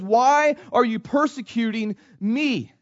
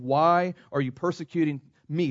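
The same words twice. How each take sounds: First: Higher, louder, slow, each word weighed; emphatic preaching. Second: Said in the usual way. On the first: Shown as a demonstration. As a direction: drive the question home to the congregation. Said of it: "repeats the quote with force". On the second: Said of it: "first reading of the quote".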